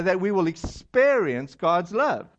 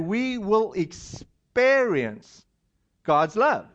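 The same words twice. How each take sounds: First: Said in the usual way. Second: Slow, leaning on "will" in "we will experience God's love"; stress on will. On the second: Shown as a demonstration. Preacher to church, pressing on "will" slowly. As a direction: draw out "will" as a firm promise. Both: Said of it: "I'm emphasizing experiencing God's love".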